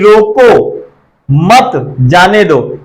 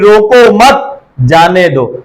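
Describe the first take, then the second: First: There is a pause right after 'roko'. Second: There is a pause right after 'mat'.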